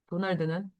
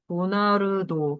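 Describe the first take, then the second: First: It is said as three syllables, Korean style. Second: It is said as four syllables, Japanese style. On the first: "도널드라고 우리말로 쓰면" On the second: "일본말로는 네 글자 돼"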